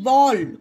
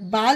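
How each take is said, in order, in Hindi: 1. स्वर एक गोल 'aw' ध्वनि है। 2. स्वर एक खुली 'aa' ध्वनि है। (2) "बाल नहीं"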